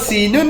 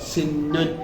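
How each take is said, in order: First: The n sound is short and single. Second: The n sound is held long and doubled. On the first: The speaker calls it wrong. "സിന്നു എന്നുള്ളതിന്റെ ശ്രദ്ധ പോയാല്" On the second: The speaker calls it right. "ഇവിടെ ഒരു ശ്രദ്ധ കൊടുക്കണം"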